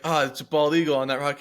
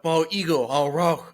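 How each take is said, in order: First: Said in the usual way. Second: Slow, choppy broken English echo. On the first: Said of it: "but in broken English". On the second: Retold or imitated. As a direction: parrot it back in broken English. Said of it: "saying everything I was saying, but in broken English".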